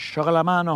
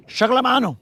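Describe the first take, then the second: First: Said in the usual way. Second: High put-on call of chocolate mano, stress on chocolate; playful catchphrase. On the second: Angler hypes his bait to viewers, high playful call. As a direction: sing out chocolate mano like a hype line.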